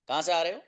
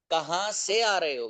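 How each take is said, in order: First: Said in the usual way. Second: Slow, drawn-out question for learners; slow repeat. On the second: Shown as a demonstration. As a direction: stretch the question out so students follow.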